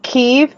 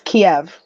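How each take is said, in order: First: The name is pronounced the Ukrainian way. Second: The name is pronounced the Russian way. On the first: This is how Ukrainians say the name. "the Ukrainians pronounce it Kiev" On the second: This is how Russians say the name. "the Russian pronounce pronunciation is Kiev"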